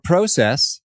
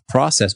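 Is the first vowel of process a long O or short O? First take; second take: long O; short O. First: The first vowel is a long O sound. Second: The first vowel is a short O sound. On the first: "as Canadians say. It's a long O instead of a short O" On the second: "a short O"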